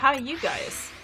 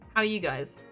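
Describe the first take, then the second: First: The pitch rises at the end. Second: The pitch does not rise at the end.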